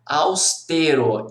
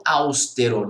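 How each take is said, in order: First: "austero" stressed slowly on TE, aus-TE-ro; tônica na penúltima. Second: "austero" stressed at the start, AUS-te-ro; tônica na primeira sílaba. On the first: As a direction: lean on TE in "austero". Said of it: "a pronúncia correta é". ("austero" devagar, com a tônica no TE) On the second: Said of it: "e não austero". ("austero" com a tônica no AUS) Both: Shown as a demonstration.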